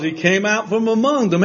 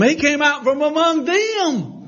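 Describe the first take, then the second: First: Said in the usual way. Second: High-pitched preaching emphasis; rising emphasis. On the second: Real, not acted. Preacher driving the point home to congregation, high and emphatic.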